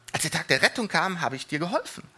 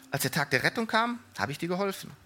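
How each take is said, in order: Both takes have the same delivery.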